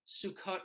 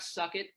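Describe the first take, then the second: First: It sounds like the Hebrew holiday name. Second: It sounds like the English words 'suck it'. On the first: The speaker calls it right. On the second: The speaker calls it wrong.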